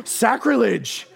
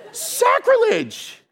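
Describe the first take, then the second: First: Drawn-out mock-scandalized word; slow, hammed-up indignation; mock outrage. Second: Very high, drawn-out squawk; slow, hammed-up falsetto protest; mock shrieked outrage. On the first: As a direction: protest like an offended fan. Mimics shocked audience, first take. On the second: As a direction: squeal it like a scandalized fan. Mimics shocked audience, higher repeat.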